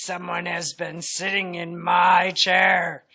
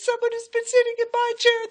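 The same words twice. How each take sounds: First: It is said in a great big voice. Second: It is said in a wee little voice.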